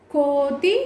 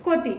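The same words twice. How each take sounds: First: "కో" held long in "కోతి"; drawn-out long vowel. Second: "కోతి" quick, with a short "కొ"; short vowel. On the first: Teacher contrasting two spellings, long "కో" in "కోతి". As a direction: stretch the first vowel of "కోతి". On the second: Teacher contrasting two spellings, short first vowel in "కోతి". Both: Shown as a demonstration. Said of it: "ఎక్కడ దీర్ఘం తీస్తున్నాము".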